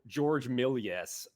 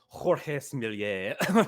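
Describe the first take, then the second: First: The name is said with an American pronunciation. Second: The name is said with a French pronunciation. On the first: "the American" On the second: "for the Frenchman"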